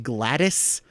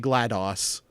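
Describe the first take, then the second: First: The name ends with a short 'dis' syllable. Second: The name ends with a 'doss' syllable. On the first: This is the intended pronunciation. "the pronunciation is supposed to be Gladys" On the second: It is read like the operating system DOS. "I see DOS and I'm going to say GLaDOS"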